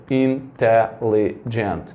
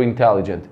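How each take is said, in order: First: "Intelligent" said slowly as four separate beats; syllable by syllable. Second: Said in the usual way. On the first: Shown as a demonstration. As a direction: break "Intelligent" into in-te-lli-gent. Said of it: "fazer aqui a contagem pelo som". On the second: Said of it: "Então quanto deu intelligent?".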